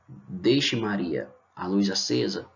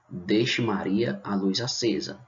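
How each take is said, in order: First: There is a pause after Deixe. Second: There is no pause after Deixe.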